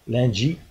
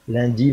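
First: The d before i sounds palatalized, like dj. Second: The d before i sounds like a plain d. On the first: "beaucoup de palatalisation, c'est-à-dire on va dire lundi" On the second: "ce qui va être prononcé dans le nord de la France lundi"

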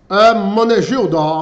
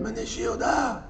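First: The name is spoken in a plain voice. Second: The name is said with a hissing voice.

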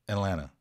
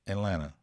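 First: The T sounds are dropped in fast speech. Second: The T sounds are dropped in fast speech.

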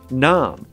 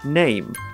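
First: The vowel is a long 'ah' sound. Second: The vowel is an 'ay' diphthong. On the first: This is the older medieval pronunciation. "Chaucer would have said" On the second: This is the present-day pronunciation. "we now say"

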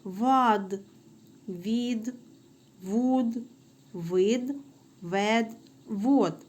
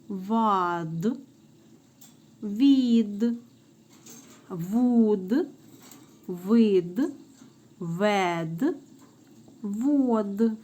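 First: The syllables are read a little faster. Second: The syllables are read at a moderate pace.

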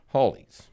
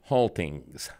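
First: The word is said without a T sound. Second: The word is said with a clear T sound. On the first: "he called them hollies" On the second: "what he was saying was haltings"

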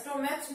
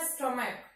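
First: The word ends with a ch sound. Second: The word ends with a k sound. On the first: The speaker calls it wrong. "स्टोमैच नहीं पढ़िएगा" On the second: The speaker calls it right. "इसको पढ़ना है स्टोमैक"

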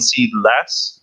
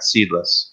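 First: The stress falls on the second syllable. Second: The stress falls on the first syllable. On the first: It has fewer seeds, not none at all. The speaker calls it right. "we mean seedless" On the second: It has no seeds at all. The speaker calls it wrong. "not seedless"

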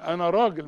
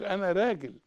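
First: The r is pronounced heavy and full. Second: The r is pronounced light and thin. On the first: The speaker calls it right. "كل راء مفتوحة راجل" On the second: The speaker calls it wrong. "مش"

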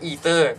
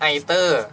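First: It is said in an American way. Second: It is said in a British way. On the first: "หรืออ่านว่า eater" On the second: "อาจจะอ่านว่า either"

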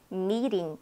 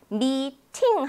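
First: The middle consonant is a quick flap like r. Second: The middle consonant is a clear t sound. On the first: The speaker calls it right. "실제로 들을 때 미링 이렇게 들렸던 거예요" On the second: The speaker calls it wrong. "미팅 하지 않고"

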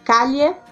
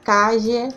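First: The ll is a palatal 'ly' sound. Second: The ll is a voiced 'zh' sound. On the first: "pode ser pronunciado como se fosse o nosso LH do português" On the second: "como se fosse o nosso J"

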